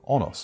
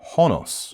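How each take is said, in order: First: The name begins directly with a vowel sound. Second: The name begins with an audible H sound.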